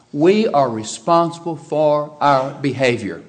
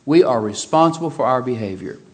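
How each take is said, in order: First: Each word of We are responsible for our behavior spaced out and slow; spelled out slowly for the congregation; slow emphatic. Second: Said in the usual way. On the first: Shown as a demonstration. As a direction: drive home every word.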